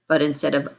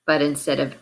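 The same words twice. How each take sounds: The two takes are said the same way.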